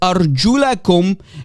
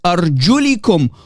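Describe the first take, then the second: First: The vowel after the l is a. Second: The vowel after the l is i. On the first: The feet must be washed. "with the fatha on top of the letter lam" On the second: The feet must be wiped. "with a kasra underneath the letter lam"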